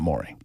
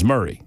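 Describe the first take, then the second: First: The first syllable sounds like 'more'. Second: The first syllable sounds like 'murr'. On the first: This is how it looks from the spelling. The speaker calls it wrong. "It is not Maury" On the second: This is how the local audience says it. The speaker calls it right. "I was excoriated by the listening audience that it is Murray"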